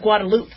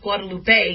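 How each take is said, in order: First: The word ends in a plain 'loop' sound. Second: The word ends with an 'ay' vowel sound. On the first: This is how other people say it. "people are pronouncing it Guadeloupe" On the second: This is how the name should be said. "You make the E, an A sound at the end"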